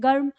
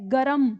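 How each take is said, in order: First: It is said quickly as one syllable. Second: It is said with two full syllables.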